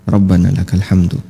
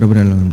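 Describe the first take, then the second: First: It is said at a normal, unhurried pace. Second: It is said very quickly, rushed.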